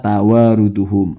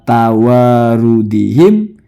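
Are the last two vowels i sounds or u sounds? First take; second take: u sounds; i sounds. First: The last two vowels are u sounds. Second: The last two vowels are i sounds. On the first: The speaker calls it wrong. "dibaca tawaruduhum" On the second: The speaker calls it right. "Harusnya tawarudihim"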